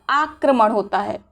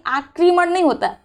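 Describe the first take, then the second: First: आक्रमण said "aakraman"; an a after क्र in आक्रमण; correct pronunciation. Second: आक्रमण said "aakriman"; wrong pronunciation. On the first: Teacher giving the correction, "kra" form. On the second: Teacher quoting the mistake, "kri" form. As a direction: put an i after क्र in आक्रमण. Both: Shown as a demonstration.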